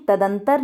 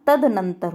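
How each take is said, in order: First: तदंतर with one "n", "ta-dan-tar"; mispronunciation demo. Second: तदनंतर with the extra "nan", "tad-nan-tar"; correct pronunciation. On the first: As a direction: drop the middle syllable, तदंतर. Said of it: "नहीं होता". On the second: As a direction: keep both n sounds in तदनंतर. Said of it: "होता है". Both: Shown as a demonstration.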